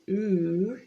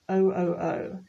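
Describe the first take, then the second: First: It is said as a single vowel word. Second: It is said as three separate letters. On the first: The speaker calls it wrong. "we don't say ooh" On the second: The speaker calls it right. "it is O O O"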